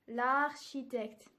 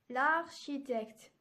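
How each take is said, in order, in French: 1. La voyelle de l'article tombe et se lie. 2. La voyelle de l'article tombe et se lie.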